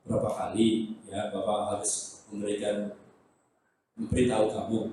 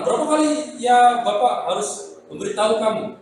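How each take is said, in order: First: It is said in a low, soft voice. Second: It is said in an ordinary voice.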